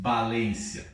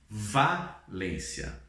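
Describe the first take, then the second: First: The first consonant sounds like b. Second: The first consonant sounds like v. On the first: The speaker calls it wrong. "Nós não falamos Valência" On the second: The speaker calls it right. "nós falamos Valência"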